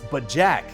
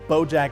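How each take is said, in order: First: The first vowel sounds like 'ah'. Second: The first vowel sounds like 'oh'. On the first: This is the form originally intended. The speaker calls it right. "that was supposed to be pronounced BaJack" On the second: This is the form the voice actor said by mistake. The speaker calls it wrong. "flub the pronunciation"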